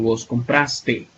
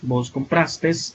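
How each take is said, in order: First: The verb ends without any s sound. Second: The verb ends with an added s sound. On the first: The speaker calls it right. "sin la pluralización o sin poner la S" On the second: The speaker calls it wrong. "no sería"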